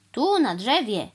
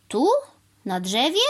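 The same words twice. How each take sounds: First: TU, NA DRZEWIE as a falling statement; stating answer. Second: TU and DRZEWIE each rising as questions, split by a pause; incredulous repeat. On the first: Cow telling crow where she will build, settled statement. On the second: Crow repeating the cow's words back, incredulous questions. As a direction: question TU, then DRZEWIE, in disbelief. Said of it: "powtórzył pan Wrona". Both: A narrator's reading.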